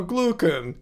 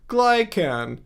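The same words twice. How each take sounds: First: "glucan" as GLUE-kan, slowly; slow "glucan" with a clear oo; correct pronunciation. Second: "Glycan" as GLY-kan, eye vowel; wrong pronunciation. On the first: Streamer recalling robot correction, "glucan" with oo. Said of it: "say it correctly". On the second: Streamer recalling robot voice, "Glycan" with eye vowel. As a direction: say "Glycan" starting like "sky". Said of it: "Or, no, glucan". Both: Shown as a demonstration.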